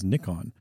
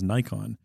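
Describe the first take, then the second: First: The name is pronounced the English way. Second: The name is pronounced the North American way. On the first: "if you go to England, you'll hear people pronouncing it as Nikon" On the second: "if you come to North America, you'll hear people pronouncing it as Nikon"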